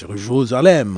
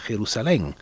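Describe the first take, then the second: First: The name is pronounced the French way. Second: The name is pronounced the Spanish way. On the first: "in French" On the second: "In Spanish"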